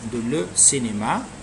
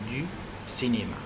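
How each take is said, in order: First: The words de and le are said separately. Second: De and le are merged into one syllable. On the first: The speaker calls it wrong. "we don't say de le cinéma" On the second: The speaker calls it right. "we used to say du cinéma"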